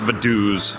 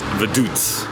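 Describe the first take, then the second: First: The name is said with an American pronunciation. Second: The name is said without an American pronunciation. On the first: The speaker calls it wrong. "not Vaduz. Very American of us" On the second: The speaker calls it right. "It's Vaduz"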